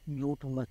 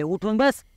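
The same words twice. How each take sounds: First: Said in the usual way. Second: Grandmother's firm order, a bit louder; stern old woman telling him to sit up; firm command. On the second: Retold or imitated. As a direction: bark the order with a rising end. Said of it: "ठणकावून आवाजातच".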